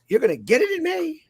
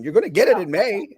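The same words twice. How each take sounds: First: It sounds friendly and excited. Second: It sounds harsh, almost angry.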